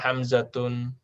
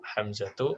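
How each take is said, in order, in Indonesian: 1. Nama ini berakhir dengan akhiran tanwin -tun. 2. Nama ini berakhir dengan -tu dan tanpa tanwin. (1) "nggak boleh kita bilang"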